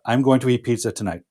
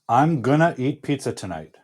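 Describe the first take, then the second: First: Going to is said fully and clearly. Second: Going to is reduced to a blended gonna. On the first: "the accurate, clear, and precise way to say this future tense expression"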